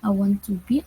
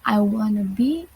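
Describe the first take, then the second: First: 'Want to' is said as two full words. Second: 'Want to' is blended into 'wanna'.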